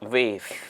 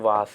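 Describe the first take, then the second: First: The vowel sounds like 'ay'. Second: The vowel sounds like 'ah'.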